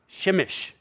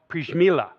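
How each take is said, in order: First: The name begins with a 'sh' sound. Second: The name begins with a 'pr' sound. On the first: The speaker calls it right. "It's really pronounced Shimish" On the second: The speaker calls it wrong. "that's how I pronounce it. That's how Google pronounces it"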